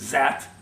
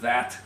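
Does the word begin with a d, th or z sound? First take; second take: z sound; th sound. First: It begins with a z sound. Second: It begins with a th sound. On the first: A French speaker says it. "the French will say zat" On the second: A native speaker says it. "instead of that"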